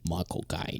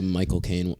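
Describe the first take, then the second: First: Low, soft Cockney accent; Michael Caine. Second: Said in the usual way. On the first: Shown as a demonstration. Podcaster attempting the actor's name, low Cockney impression. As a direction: drop it down into a quiet Cockney impression. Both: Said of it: "I wish I could do the Michael Caine".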